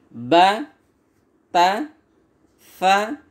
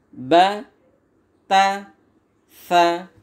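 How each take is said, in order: The two takes are said the same way.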